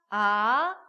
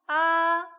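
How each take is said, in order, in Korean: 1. 음높이가 중간에서 높게 올라갑니다. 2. 음높이가 높은 채로 평평하게 유지됩니다. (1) "이" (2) "일"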